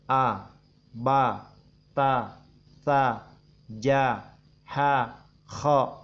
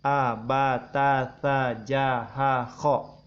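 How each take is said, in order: First: The letters come slowly, at a steady ticking pace. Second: The letters come quickly, one right after another. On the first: "minimal seperti jalannya detik jam" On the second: "Atau lebih cepat lagi boleh"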